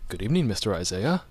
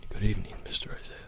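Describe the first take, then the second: First: Lightly voiced proper butler; a hint of formal, measured butler greeting. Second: Hushed, quick butler greeting. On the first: Host trying out a butler voice for his co-host, lightly proper. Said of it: "Ooh, proper". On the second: Host having another go at the butler, whispered and quick. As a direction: whisper it briskly like a discreet butler. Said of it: "That was kind of like". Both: Shown as a demonstration.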